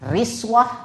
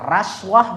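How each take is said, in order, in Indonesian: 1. Vokal pertama adalah bunyi i. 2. Vokal pertama adalah bunyi a. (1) "Bisa dibaca riswah" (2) "bisa dibaca raswah"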